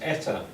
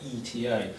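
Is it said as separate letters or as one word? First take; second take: word; letters. First: It is said as one word. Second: It is said as three separate letters. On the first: The speaker calls it right. "so it's pronounced like a word" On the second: The speaker calls it wrong. "not E T A"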